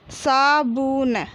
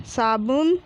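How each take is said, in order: First: Slow, stretched सा, बु, न, falling at the end; drawn-out teaching reading of साबुन; syllable by syllable. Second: Said in the usual way. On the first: Shown as a demonstration. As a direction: sound out साबुन piece by piece. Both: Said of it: "तो हम इस प्रकार पढ़ेंगे".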